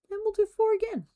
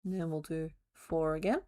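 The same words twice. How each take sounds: First: Squeaky high voice. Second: Said in the usual way. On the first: Pretend. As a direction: jump way up high on "And we'll do four again". Counting crochet stitches aloud.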